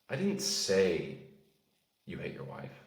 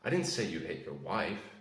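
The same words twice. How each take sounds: First: The word 'say' carries the stress. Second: The word 'wife' carries the stress. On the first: It was implied rather than said. "That means you maybe inferred it" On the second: Someone else was hit. "That implies that you hit someone else"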